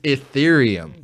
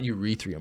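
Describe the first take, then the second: First: The word starts with an 'ee' sound. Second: The word starts with a 'yur' sound. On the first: The speaker calls it right. "It's Ethereum" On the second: The speaker calls it wrong. "It's not urethrium"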